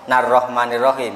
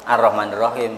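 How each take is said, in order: First: It starts with a linked 'n' sound. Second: It starts fresh with a vowel after a breath. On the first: The recitation continues without stopping. "kalau mau meneruskan" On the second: The recitation stops and resumes after a breath. "kalau mau berhenti ... ambil nafas kemudian"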